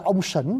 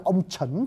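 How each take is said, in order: First: "sẩn" with a hushing S-H onset; contrasting pronunciation. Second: "trẩn" with a CH onset as in church; contrasting pronunciation. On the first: Teacher contrasting god with subject, pronunciation demo. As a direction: say "ông sẩn" with sh at the start of "sẩn". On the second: Teacher contrasting subject with god, pronunciation demo. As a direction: say "ông trẩn" with ch at the start of "trẩn". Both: Shown as a demonstration. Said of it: "Hai cái đó về tiếng Việt Nam mình thiếu".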